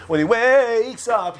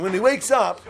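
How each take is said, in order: First: Very slow, stretched WAKES; drawn-out waking. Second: Said in the usual way. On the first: Acted. Storyteller acting the patient waking, drawn-out WAKES.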